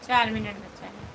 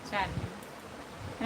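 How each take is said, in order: First: Said in the usual way. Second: "चार minute" echoed softly and lower, drawn out; slow soft repeat. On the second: Real, not acted. To viewers as the live nears its end, a slow soft echo. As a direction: let चार minute sink away slowly and lower. Counting down minutes left on live.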